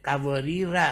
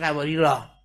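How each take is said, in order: First: The word ends in a short a vowel. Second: The word ends in a long a vowel. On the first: The reciter joins this word to the next. "الف که وجود انگار نداره هنگام وصل کردن" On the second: The reciter stops at this word. "اگر استوب کنید وقف کنید میشه"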